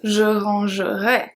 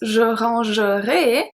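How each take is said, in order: First: The ending has the conditional's vowel sound. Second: The ending has the future-tense vowel sound.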